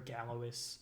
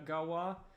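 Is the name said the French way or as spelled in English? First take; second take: as spelled; French way. First: The name is said as spelled in English. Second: The name is said the French way. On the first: The speaker calls it wrong. "it's way better to say Galois" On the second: The speaker calls it right. "I'm aware that it's pronounced uh"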